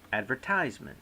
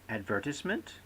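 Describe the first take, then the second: First: "advertisement" with a long "tize" in the third syllable; American pronunciation. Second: "advertisement" stressed on VER, ending "tis-ment"; British pronunciation. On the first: Lecturer offering students the alternative, American ad-ver-TIZE-ment. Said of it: "Americans advertisement". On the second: Lecturer asking students where stress falls, British ad-VER-tis-ment. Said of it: "The British say advertisement". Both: Shown as a demonstration.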